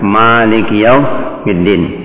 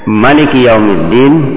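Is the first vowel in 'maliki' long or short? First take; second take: long; short. First: The first vowel of maliki is drawn out long. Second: The first vowel of maliki is kept short. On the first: The word means owner. "Bacaan dengan panjang" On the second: The word means king. "Kalau dibaca pendek"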